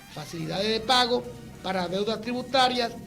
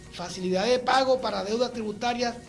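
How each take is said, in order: No difference in how they are said.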